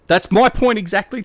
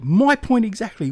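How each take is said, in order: First: "my" lifted high and loud with a rise; "that's MY point exactly" with a rising tune; stress on my. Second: "My" hit high then falling away; "MY point exactly" with a falling finish; stress on my, falling. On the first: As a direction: punch "my" up, rising at the end. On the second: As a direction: land hard on "My" and drop the tune. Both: Shown as a demonstration.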